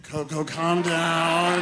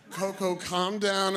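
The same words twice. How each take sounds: First: Loud, very slow imitated plea; strained calming. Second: Slow imitated attempt at calming; drawn-out pleading. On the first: Keeper tries again to settle Coco, strained. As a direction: call it out loudly, dragging the last word. Keeper's louder attempt to calm gorilla. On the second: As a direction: stretch each word to settle her. Keeper calming the agitated gorilla.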